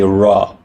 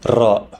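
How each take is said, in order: First: The r is smooth with no trill. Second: The r is rolled with a trill. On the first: The speaker calls it wrong. "we don't say Ra" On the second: The speaker calls it right. "with a roll, right? We say Ra"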